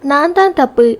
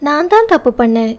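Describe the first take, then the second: First: தான் pushed high then falling away; stress on தான் falling. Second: தான் lifted high and leaned on; stress on தான். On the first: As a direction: lean on தான் and let it drop, tearful. She takes the blame back. ("தான்" மீது அழுத்தம், இறங்கும் தொனி) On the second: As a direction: press hard on தான் to own the fault. He takes the blame. ("தான்" மீது அழுத்தம், உயர்ந்த குரலில்) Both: A narrator's reading.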